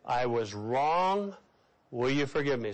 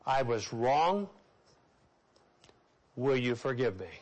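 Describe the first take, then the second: First: Low and very slow, leading the congregation; slow earnest apology to repeat; slow sincere confession. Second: Low, slow and earnest, each word weighed; humble apology, slow and low; slow sincere confession. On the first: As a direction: model the words for them to repeat. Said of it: "Say that with me". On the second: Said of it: "Seven words". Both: Shown as a demonstration.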